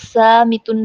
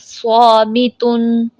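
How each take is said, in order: First: The first consonant sounds thin and light. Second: The first consonant sounds heavy and full. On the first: The speaker calls it wrong. "हम इसको सामितुन नहीं पढ़ सकते" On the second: The speaker calls it right. "हमने इसको पुर पढ़ना है"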